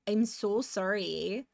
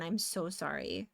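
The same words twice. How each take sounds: First: Slow, drawn-out Canadian "sorry"; lightly put-on Canadian accent on "I'm so sorry". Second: Said in the usual way. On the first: Shown as a demonstration. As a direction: stretch "sorry" the Canadian way, round and apologetic. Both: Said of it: "that's a very Canadian sorry".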